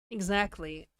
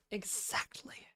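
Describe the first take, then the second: First: Said in the usual way. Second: Breathy whispered repeat; whispering. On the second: Pretend. Repeats word, then whispers it.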